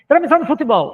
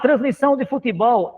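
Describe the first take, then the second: First: The phrase is spoken quickly. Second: The phrase is spoken slowly. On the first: The speaker calls it wrong. "se eu falo mais rápido as palavras" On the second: The speaker calls it right. "eu descanso mais do que eu usar mais rápido"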